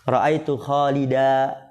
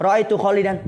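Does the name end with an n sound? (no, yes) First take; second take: no; yes. First: The name ends without any n sound. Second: The name ends with an added n sound. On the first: The speaker stops at this word. "kalau berhenti" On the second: The speaker continues on to more words. "ketika dilanjut ditanwin"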